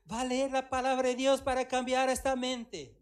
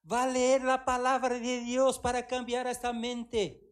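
First: Said in the usual way. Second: Slow, louder stern command; slow emphatic commanding call; divine command. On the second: Retold or imitated. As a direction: lay down the order like God. God's command, slow and loud.

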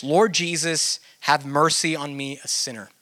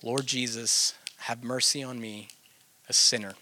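First: Calm sincere prayer. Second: Soft, prayerful repetition. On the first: Teacher demonstrating the Jesus Prayer to listeners, calm and sincere. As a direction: speak it as a simple, sincere prayer. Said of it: "maybe something like this". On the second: Teacher showing how to sit with the repeated prayer, soft and low. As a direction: murmur it softly as if alone with God. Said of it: "you're just sitting there with that prayer". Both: Shown as a demonstration.

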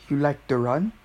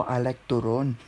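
First: "to run" with a short U, rising as a question; "to run" as English. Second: "to run" said as "turon", with an O vowel. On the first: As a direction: ask "to run" as the English verb. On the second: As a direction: answer with "to run" turned into Filipino "turon". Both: Acted. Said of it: "Me on a date".

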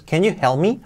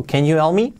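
First: "help" with a clearly breathed H; "help" starting on an audible puff of air; marked H. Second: "help" almost as "elp"; "you help" linked, hardly any H; less marked H. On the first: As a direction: sound the H in "Can you help me". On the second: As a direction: let the H vanish in "Can you help me". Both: Shown as a demonstration. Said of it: "con la H más marcada o menos".

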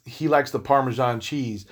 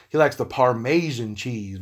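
First: Said in the usual way. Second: Parmesan said as "par-MAY-zhun"; altered pronunciation of Parmesan. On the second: Shown as a demonstration. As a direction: stretch the middle of Parmesan into a long "may". Playful second pronunciation of Parmesan.

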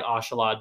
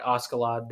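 First: "Ashalad" with soft sh, no k; as spoken onscreen. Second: "Askeladd" with a hard k after the s; as spelled. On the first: Explaining what the show says, "Ashalad" with soft sh. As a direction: say "Ashalad" as AH-sha-lad. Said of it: "They say it like Ashalad". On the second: Explaining the spelling to co-host, "Askeladd" with hard sk. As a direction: say "Askeladd" as AH-ska-lad. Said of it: "it's spelled like Askeladd". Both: Shown as a demonstration.

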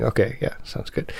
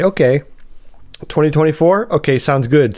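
First: Muttered sarcastic reply. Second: Mock agreeable. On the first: Retold or imitated. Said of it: "That's what you're, you're really saying". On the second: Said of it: "You kinda say".

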